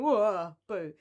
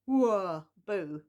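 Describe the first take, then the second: First: Spooky loud whoa, boo again; hammy spooky ghost wail. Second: Spooky loud whoa, boo; hammy spooky ghost wail. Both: Pretend.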